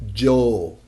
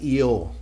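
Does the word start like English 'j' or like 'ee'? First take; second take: j; ee. First: It starts with a sound like English j. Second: It starts with a vowel-like ee sound. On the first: The speaker calls it right. "it's the same as the sound in English with the J" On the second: The speaker calls it wrong. "it sounds like E O, but it sounds weird"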